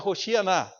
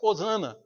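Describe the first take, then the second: First: The word is said with a 'sh' sound. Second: The word is said without a 'sh' sound. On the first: This is the original form of the word. "porque na verdade é Roshianá" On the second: This is the form adapted to a language lacking that sound. "eles não tinham como fazer. Então fica Hosana"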